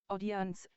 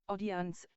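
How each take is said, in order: The two takes are said the same way.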